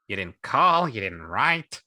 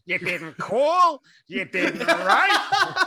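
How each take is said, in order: First: Lightly put-on wounded complaint; a hint of theatrical grievance; character voice. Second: Very high, loud, slow guilt-trip; hammed-up wail breaking into laughter; exaggerated character voice. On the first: A narrator's reading. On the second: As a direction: stretch the complaint out, shrill and overdone. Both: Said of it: "the payoff for that voice".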